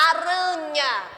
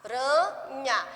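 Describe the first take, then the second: First: Aranha said slowly, split into syllables; teacher counting the syllables in aranha. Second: Put-on teacher tapping out syllables for children. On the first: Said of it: "Por exemplo". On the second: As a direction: tap out the three syllables of aranha. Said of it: "foi três pedacinhos". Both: Shown as a demonstration.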